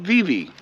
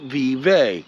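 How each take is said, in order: First: It uses the locals' pronunciation of the name. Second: It uses the outsiders' pronunciation of the name. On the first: This is how residents say it. "Us locals call it Vivi" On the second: This is how non-residents say it. "Everybody else that's not locals calls it Vive"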